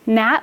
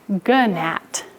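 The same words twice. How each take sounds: First: The word begins with a plain N sound. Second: The word begins with a G before the N. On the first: The present-day way of saying it. "instead of gnat" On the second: An older way of saying it. "we used to say gnat"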